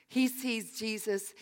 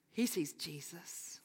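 First: Said in the usual way. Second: Hushed, slow whisper; awed whisper. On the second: Acted. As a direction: breathe it as a secret. Sermon emphasis by whisper.

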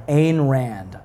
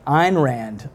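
First: Ayn said like "Ain", drawn out slowly; uncertain pronunciation. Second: Ayn said like "Ine"; corrected pronunciation. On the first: Preacher guessing at the author's name, Ayn said as "Ain". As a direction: say Ayn to rhyme with "rain". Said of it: "don't even know how to pronounce". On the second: Preacher trying the author's name another way, Ayn said as "Ine". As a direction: say Ayn to rhyme with "mine". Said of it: "I think I might have said it". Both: Shown as a demonstration.

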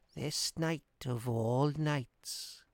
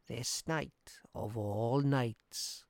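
First: Put-on old woman whispering. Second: Put-on soft, very slow old woman; an old crone's slow, soft warning; old woman speaking softly. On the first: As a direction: murmur a slow ominous warning. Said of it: "whispered the old woman". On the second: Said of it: "said the old woman softly". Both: A narrator's reading.

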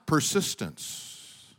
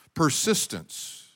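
First: Persistence drawn out slow and low; slow, weighty Persistence; slow emphatic word. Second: Said in the usual way. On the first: Shown as a demonstration. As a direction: land the word Persistence slowly, like a verdict. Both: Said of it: "You know how they won?".

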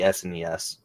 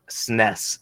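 First: S N E S said letter by letter; name each letter in S N E S separately; spelled-out S N E S. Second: Snes run together in one syllable; snes as one word. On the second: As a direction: say snes as a word, rhyming with mess. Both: Shown as a demonstration. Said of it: "however you all wanna say it".

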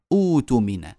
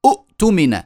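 First: أوتمن opening on a long smooth u; hamza as long u. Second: أؤتمن with a glottal catch after u; two hamzas sounded. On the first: Teacher showing what we say, long u replacing hamza. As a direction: stretch the u in أوتمن without a catch. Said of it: "وإنما نقول". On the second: Teacher showing what we don't say, second hamza sounded. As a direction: stop the throat hard after first vowel of أؤتمن. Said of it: "لا نقول". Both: Shown as a demonstration.

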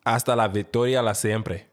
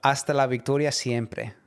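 First: "Hasta la victoria la siempre" repeated with an extra "la"; halting learner try at "Hasta la victoria siempre"; imitating Spanish. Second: "Hasta la victoria siempre" in careful Spanish, each syllable crisp; over enunciating. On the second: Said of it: "One more time". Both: Shown as a demonstration.

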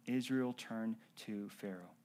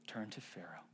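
First: Said in the usual way. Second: Low hushed whisper of turned to Pharaoh. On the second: Shown as a demonstration. Whispered repeat of phrase.

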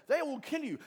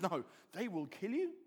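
First: High, loud alarmed declaration; raised voice, hitting it hard; voice of doom. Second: Calm, level correction; unalarmed, lifting at the end; Jesus. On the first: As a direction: announce it as a disaster. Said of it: "No one else is saying that". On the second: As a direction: concede it evenly, more to come. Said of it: "And Jesus says". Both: Acted.

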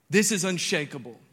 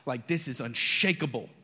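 First: Higher, louder unshakable; emphatic declaration. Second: Said in the usual way. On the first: Shown as a demonstration. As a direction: proclaim it boldly. Repeats declaration.

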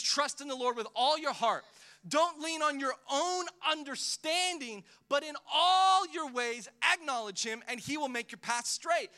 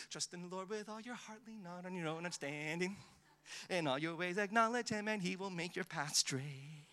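First: Loud, high, forceful reading of the verse; preached scripture. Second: Taught nicely. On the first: Pastor proclaiming the verse to the church, loud and forceful. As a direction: proclaim "Trust in the Lord" with full preaching power. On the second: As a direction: recite it sweetly, like a memory verse for children. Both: Shown as a demonstration. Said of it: "And we teach it nicely".

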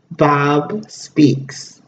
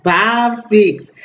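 First: Dramatic announcer. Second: Said in the usual way. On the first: Shown as a demonstration.

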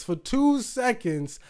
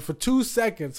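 First: "two seconds" said slower and higher; stressed repeat. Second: Said in the usual way. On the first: Real, not acted.

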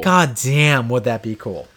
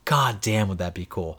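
First: DAMN leaned on, fuller voice; emphatic awe. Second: Softer, low-key marvel; hushed awe. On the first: Podcaster repeating the wish to co-host, emphatic "damn". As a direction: lean hard on "damn" in wonder. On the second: Podcaster daydreaming about old games on Switch, hushed awe. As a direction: say it softly, half to yourself. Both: Real, not acted.

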